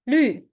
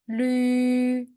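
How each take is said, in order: First: The pitch falls sharply from high. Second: The pitch stays high and level.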